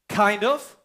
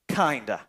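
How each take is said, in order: First: The words are said in full, separately. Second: The words blend together in reduced form.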